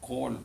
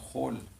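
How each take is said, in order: First: It begins with a hard k sound. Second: It begins with a throaty ch sound. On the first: The speaker calls it wrong. "it's not a kol" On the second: The speaker calls it right.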